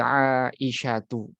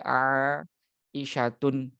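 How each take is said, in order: First: The name ends on a plain u vowel. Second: The name ends with an added n sound. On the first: The speaker calls it right. "Tapi Aisyatu" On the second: The speaker calls it wrong. "enggak boleh Aisyatun"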